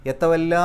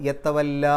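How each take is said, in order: No difference in how they are said.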